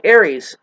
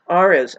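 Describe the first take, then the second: First: Aries said like the zodiac sign, AIR-eez; wrong take, Aries as AIR-eez; mispronounced Aries. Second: Ares said AR-eez, starting like "are"; right take, Ares as AR-eez; corrected pronunciation. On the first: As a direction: Aries with the star-sign vowel, not Ares. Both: Shown as a demonstration. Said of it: "is the way you say it".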